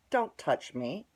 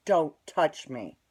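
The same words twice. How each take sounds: First: Said in the usual way. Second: DON'T TOUCH ME slow and loud, each word hit; retold warning, "Don't touch me" spaced out and forceful; firm repeated warning.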